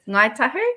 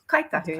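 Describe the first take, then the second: First: It starts with an ng sound. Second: It starts with a k sound.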